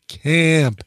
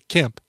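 First: The vowel is stretched out longer. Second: The vowel is short and plain. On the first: The name is spelled with two A's. "but it's two A's, so I say Camp" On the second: The name is spelled with one A. "If it was one A, I'd say Camp"

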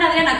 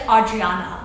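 First: The name is said with a Spanish accent. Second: The name is said with an English accent. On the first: The speaker calls it right. "I'll randomly like say a word like with a Spanish accent" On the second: The speaker calls it wrong. "it just sounds weird and forced to say English like Adriana"

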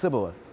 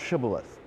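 First: The word begins with a plain s sound. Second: The word begins with a sh sound. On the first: The speaker is from a region that uses the s sound. "in some regions, it would be pronounced Sibboleth" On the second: The speaker is from a region that uses the sh sound. "In other regions, it would be pronounced Shibboleth"

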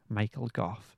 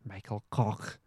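First: The surname ends with an f sound. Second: The surname ends with a guttural sound.

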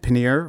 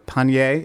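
First: The word is pronounced in a plain English way. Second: The word is pronounced in a French-sounding way.

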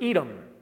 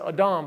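First: The first vowel sounds like 'eh'. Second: The first vowel sounds like 'ah'. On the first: "I'm going to pronounce it Edom for the sake of us who speak English first" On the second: "Or you could pronounce it Adam"

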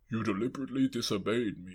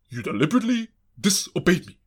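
First: It is said in a tired, lifeless way. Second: It is said with strong, lively energy.

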